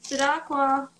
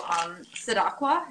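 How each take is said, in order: First: Sidakwa repeated as suh-DAHK-wah, higher and louder; name said again. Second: Sidakwa said tentatively as suh-DAHK-wah with a rising, questioning tune; first careful go at Sidakwa, sounding it out; unsure name try. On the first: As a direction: say Sidakwa again with more confidence. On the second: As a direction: try out Sidakwa as if asking whether it is right. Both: Real, not acted. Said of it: "Is that how I say your name?".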